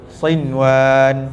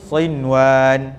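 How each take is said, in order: Both takes have the same delivery.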